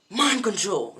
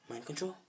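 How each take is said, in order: First: Loud, high anime attack call; triumphant acted yell; attack cry. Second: Very soft questioning repeat; hushed acted bewilderment; puzzled echo. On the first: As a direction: shout out the special move. Opponent shouts his attack. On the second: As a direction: echo it quietly, unconvinced. Deku queries the attack name.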